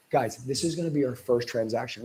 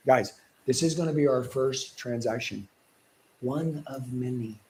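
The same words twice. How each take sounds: First: Authoritative. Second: Slow, firm closing with a softer trailing phrase; authority voice. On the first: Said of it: "talking to them like I'm the authority". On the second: Coach demonstrating authority to sales trainees, firm and slow. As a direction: talk down as the one in charge. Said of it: "like I'm the, the authority". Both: Shown as a demonstration.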